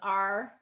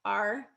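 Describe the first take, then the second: First: The word is said in a reduced form. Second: The word is said in a reduced form.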